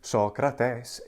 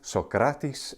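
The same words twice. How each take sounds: First: It is said in classical Attic Greek pronunciation. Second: It is said in modern Greek pronunciation. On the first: "in ancient Greek in the classical Attic pronunciation" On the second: "Socrates in modern Greek"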